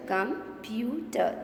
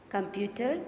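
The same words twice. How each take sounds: First: "computer" slowly as com, pu, ter; drawn-out teaching split of "computer"; split into syllables. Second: Said in the usual way. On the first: Shown as a demonstration. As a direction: say "computer" in three separate beats. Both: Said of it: "Three sounds".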